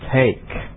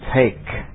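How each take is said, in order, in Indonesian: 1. Bunyi t di akhir jelas dilepas. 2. Bunyi t di akhir jelas dilepas.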